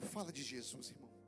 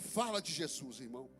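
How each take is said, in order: First: It is said in a normal voice. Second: It is said in a prophet's voice.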